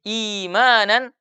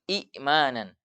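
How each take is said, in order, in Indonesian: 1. Kata "imanan" diawali dengan vokal panjang i. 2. Setelah i pertama ada hamzah.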